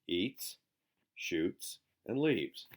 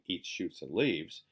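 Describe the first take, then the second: First: It is said with pauses between the actions. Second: It is said as one run without pauses. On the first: Someone eats, then shoots, then goes away. "We're saying" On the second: Someone eats plants called shoots and leaves. "Now we're not just saying"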